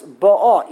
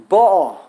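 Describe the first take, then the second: First: Ba'a loud, falling on the second syllable; contrasting syllable stress. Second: Ba'a loud, with weight on the first syllable; contrasting syllable stress. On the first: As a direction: punch ba'a with a falling final a. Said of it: "Either it means the present tense". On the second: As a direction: punch the opening of ba'a. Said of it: "emphasis on the wrong syllable". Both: Shown as a demonstration.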